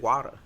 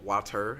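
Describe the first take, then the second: First: The word is quick, with a short final er. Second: The word is drawn out, not clipped. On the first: This is how the speaker naturally talks. "I'm saying the er at the end, but it's quick" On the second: This is how other people say it. "I don't say water or water"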